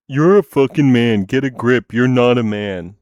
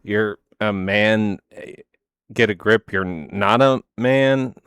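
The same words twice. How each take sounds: First: Loud, mocking insult; angry yell. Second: Drawn-out, mocking imitation; slow mocking. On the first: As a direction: spit it out like an angry troll. Quoting hostile commenter, acted. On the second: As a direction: stretch each word to mock them. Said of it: "you were telling her".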